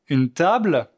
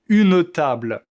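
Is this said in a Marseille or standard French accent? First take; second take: standard; Marseille. First: It is said in a standard French accent. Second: It is said in a southern Marseille accent. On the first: "moi, je dis" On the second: "un Marseillais dirait"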